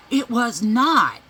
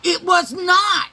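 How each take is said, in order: First: Louder, slow, stubborn "It was not"; indignant denial. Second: Shouted high and slow, outraged "It was not"; shouted denial. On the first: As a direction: deny it flatly and loudly. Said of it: "She goes". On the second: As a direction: yell it back even harder. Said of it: "I said, Yes, it is". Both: Retold or imitated.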